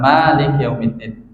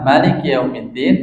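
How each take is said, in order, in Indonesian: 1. Vokal pertama setelah m panjang. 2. Vokal pertama setelah m pendek. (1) "Memnya panjang ya" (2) "Riwayat lain boleh dibaca"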